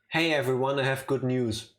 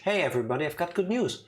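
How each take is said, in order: First: It is said in a calm, sober tone. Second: It is said in a happy, excited tone.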